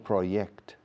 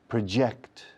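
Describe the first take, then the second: First: The word begins with a 'y' sound. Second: The word begins with an English 'j' sound. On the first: The speaker calls it wrong. "No proyect. Proyect es Y" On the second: The speaker calls it right. "La J de project suena como J en inglés"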